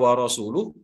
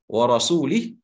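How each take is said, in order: First: The last word ends with an 'uh' sound. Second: The last word ends with an 'ih' sound. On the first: The speaker calls it right. "yang seharusnya dibaca wa rasuluh" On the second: The speaker calls it wrong. "karena salahnya salah seorang sahabat yang lain memberikan baris"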